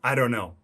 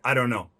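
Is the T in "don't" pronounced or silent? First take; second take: silent; silent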